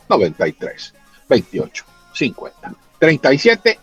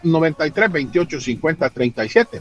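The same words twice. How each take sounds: First: The number is said slowly. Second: The number is said at normal speed.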